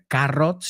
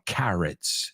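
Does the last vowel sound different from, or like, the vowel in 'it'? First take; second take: different; like it. First: The last vowel does not sound like 'it'. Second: The last vowel sounds like 'it'. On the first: The speaker calls it wrong. "no dijiste carrots" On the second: The speaker calls it right. "Suena más como it"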